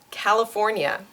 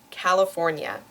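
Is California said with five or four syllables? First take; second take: four; four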